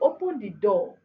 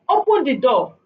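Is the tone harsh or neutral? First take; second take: neutral; harsh. First: It is said in a plain, neutral tone. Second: It is said in a harsh, unpleasant tone. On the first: A simple request to open the door. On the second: The listener may feel disrespected and resist the request.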